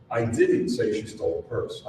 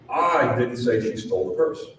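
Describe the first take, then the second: First: "didn't" hit hard, the rest kept level; stress on DIDN'T. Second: I didn't say she stole the purse, with "I" punched and a rise at the end; stress on I. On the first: Seminar speaker showing the audience how stress shifts meaning, stress on "didn't". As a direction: deny it by leaning on "didn't". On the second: Seminar speaker showing how stress shifts meaning, stress on "I". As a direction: lean hard on "I", the rest light. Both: Shown as a demonstration. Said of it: "every single time I say these seven words".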